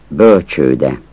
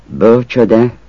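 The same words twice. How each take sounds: First: Bölcsőde with a long ő in the middle; long-vowel bölcsőde. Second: Bölcsöde with a short ö in the middle; short-vowel bölcsöde. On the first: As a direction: say bölcsőde holding the ő. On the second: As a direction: say bölcsöde with a quick ö. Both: Shown as a demonstration. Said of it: "Azt a kiejtés változatot".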